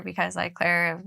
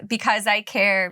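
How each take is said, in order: First: "Claire" said /kʰlɛɹ/ with a clear l; the pun word "Claire" with the l sound in place of "Care". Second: "Care" said as plain /kʰɛɹ/ without an l; the word "Care" said normally, no l sound. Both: Shown as a demonstration. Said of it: "fun puns".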